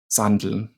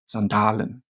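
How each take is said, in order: First: The word is shortened to two syllables. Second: The word is said with all three syllables.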